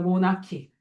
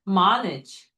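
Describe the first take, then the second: First: The first vowel sounds like 'oh'. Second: The first vowel sounds like 'ah'. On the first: "모나키예요" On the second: "좀 더 있어 보이고 싶으면 미국 발음으로"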